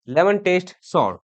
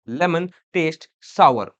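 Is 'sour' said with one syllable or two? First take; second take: one syllable; two syllables. First: Sour is said as one syllable, like sore. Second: Sour is said as two syllables, like sower. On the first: The speaker calls it wrong. "ये सॉर नहीं होता" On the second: The speaker calls it right. "सावर होता है"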